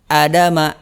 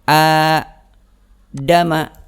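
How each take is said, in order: First: The first vowel is short. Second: The first vowel is long. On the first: "maka ini bacanya nggak panjang, pendek" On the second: "dibaca harus panjang"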